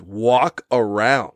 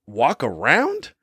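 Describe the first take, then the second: First: Very slow flat dismissal; deadpan repeat. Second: Slow rising disbelief; incredulous echo. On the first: Mocking the sister's covid tip, slow and scornful. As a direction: drag the phrase out scornfully. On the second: Echoing the sister's tip with slow disbelief. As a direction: repeat it as if it's absurd. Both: Real, not acted. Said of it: "pretty sure that's the last thing".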